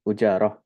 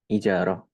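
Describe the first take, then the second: First: The word begins with a u vowel. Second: The word begins with an i vowel. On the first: "Wa hukiya dhammuha" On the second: "wahia bikasril hamzah"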